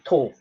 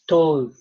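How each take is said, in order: First: The vowel sound is clipped short and quick. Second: The vowel sound is drawn out long. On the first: The speaker calls it wrong. "Most people say it too quickly and they say to" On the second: The speaker calls it right. "you'll always hear me elongate the word"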